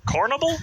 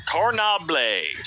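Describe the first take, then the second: First: "Cornable" as COR-nuh-bul, high and questioning; quick rising "Cornable?", weak middle syllable; trial pronunciation. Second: "Cornable" drawn out as cor-nob-LAY; mock-fancy pronunciation. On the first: Reader testing an unknown word, "Cornable" as COR-nuh-bul, questioning. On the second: Reader playing with an unknown word, "Cornable" as slow cor-nob-LAY. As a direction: say "Cornable" slowly, ending French-style in "-blay", falling. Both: Shown as a demonstration.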